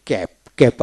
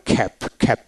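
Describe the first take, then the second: First: "ক্যাপ" with a plain k; unaspirated K. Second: "খ্যাপ" with a breathy puff after k; aspirated K. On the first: Teacher modelling a one-syllable word, unaspirated K in "ক্যাপ". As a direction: say "ক্যাপ" without a puff of air. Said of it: "আবার খ্যাপ, খ্যাপ উচ্চারিত হয়". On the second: Teacher showing the alternative pronunciation, aspirated K in "খ্যাপ". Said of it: "খ্যাপ উচ্চারিত হয়". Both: Shown as a demonstration.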